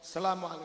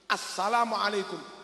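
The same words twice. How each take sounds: First: The opening 'al' sound is dropped. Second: The opening 'al' sound is clearly pronounced. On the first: The speaker calls it wrong. "enggak boleh. Alnya enggak boleh hilang" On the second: The speaker calls it right. "salam yang benar harus assalamualaikum"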